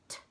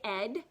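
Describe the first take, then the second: First: The ending is a single voiceless t sound. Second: The ending is a full syllable, id. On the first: "or it could make the T sound" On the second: "It could say ed"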